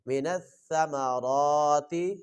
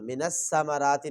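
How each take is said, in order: First: The consonant is a soft th without hissing. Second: The consonant is a hissing, whistling s sound. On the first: The speaker calls it right. "सा को पढ़ते हुए सीटी की आवाज़ नहीं आनी चाहिए" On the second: The speaker calls it wrong. "नहीं पढ़ना, ... सीन को पढ़ते हुए सीटी की आवाज़ है"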